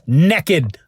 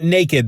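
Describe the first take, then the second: First: The first vowel sounds like the vowel in 'neck'. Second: The first vowel sounds like the vowel in 'name'. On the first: "That's N E K K I D" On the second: "and not naked"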